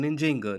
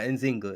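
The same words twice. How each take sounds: First: The name is said with a J sound. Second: The name is said with a Z sound. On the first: This is what she was really called. The speaker calls it right. "which is the pronunciation of her name" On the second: This is what foreign colonizers called her. The speaker calls it wrong. "Nzinga is what the Portuguese called her. That's because their J's sound like Z"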